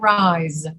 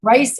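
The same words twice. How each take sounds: First: Drawn-out rise, Z not S; voiced Z. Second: Rice rising, with a hissed S; careful Rice, S not Z; voiceless S. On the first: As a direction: rise long and falling, with a buzzing Z. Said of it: "these words that have the Z sound". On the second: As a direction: say Rice slowly, no voice on the S. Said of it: "Are you able to say them both?". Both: Shown as a demonstration.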